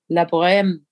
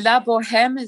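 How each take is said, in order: First: The h sound is silent in the name. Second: The h sound is pronounced in the name. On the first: "it's French or it's like Italian" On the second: "that's the English pronunciation where we pronounce the H"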